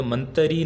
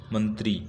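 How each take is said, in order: First: मंत्री said man-te-ree with an extra vowel before the r; wrong spelling read out. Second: मंत्री said mant-ree with the tr cluster and a falling end; corrected word. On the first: Teacher reading the misspelt मंत्री aloud with an extra vowel. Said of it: "और ये मंत्री नहीं होता". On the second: Teacher giving students the correct मंत्री with a tight tr cluster. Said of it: "क्या होता है". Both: Shown as a demonstration.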